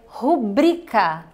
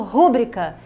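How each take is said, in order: First: The stress is on the second syllable, bri. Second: The stress is on the first syllable, ru. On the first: The speaker calls it right. "a sílaba tônica, a sílaba forte, fica no bri" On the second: The speaker calls it wrong. "colocam o estresse, o acento, a palavra mais forte, como se fosse o ru"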